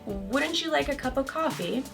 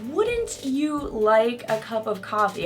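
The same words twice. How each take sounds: First: The t and y blend into ch. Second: The t and y sounds stay separate. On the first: This is everyday casual speech. The speaker calls it right. "in everyday English, we say" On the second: The speaker is being very formal and proper. The speaker calls it wrong. "I wouldn't say, ... Unless I'm being super formal"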